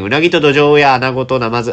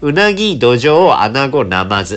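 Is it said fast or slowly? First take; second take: fast; slowly. First: It is said fast, like a tongue twister. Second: It is said slowly, word by word.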